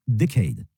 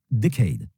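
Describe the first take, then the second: No difference in how they are said.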